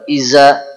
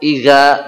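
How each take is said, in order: First: The middle consonant is a plain z sound. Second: The middle consonant is a g sound. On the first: "bukan iza" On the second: "bukan iga"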